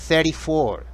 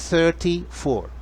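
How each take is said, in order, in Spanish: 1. Se dice con acento americano. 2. Se dice con acento británico. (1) "treinta y cuatro es en americano" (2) "Y en británico"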